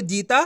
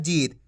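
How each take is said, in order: First: जीता ending in a full aa; full final vowel. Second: जीत ending on a bare t; no aa after the t in जीत; long ee then light t in जीत; half final consonant. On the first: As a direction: say the last syllable of जीता as "taa". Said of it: "इस तरीके से पढ़ोगे". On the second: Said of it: "आपको आधा करना है". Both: Shown as a demonstration.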